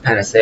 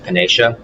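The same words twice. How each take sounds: First: Panacea said "pan-uh-SAY-uh", four syllables; pronounced pan-a-SAY-a. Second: Panacea said "pan-AY-shuh", three syllables; pronounced pan-AY-sha. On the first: Gamer showing one way he has heard it, panacea as "pan-uh-SAY-uh". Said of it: "I've heard it pronounced". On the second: Gamer showing the other way he has heard it, panacea as "pan-AY-shuh". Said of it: "heard it pronou-, pronounced panacea". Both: Shown as a demonstration.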